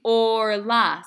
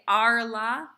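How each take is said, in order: First: The first vowel is a rounded 'oh' sound. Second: The first vowel is an open 'ah' sound. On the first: The speaker calls it right. "It's pronounced o, not a" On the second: The speaker calls it wrong. "that I would say is incorrect"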